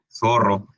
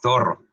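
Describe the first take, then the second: First: The z is said like s, Latin American style. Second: The z is said like th, Spain style.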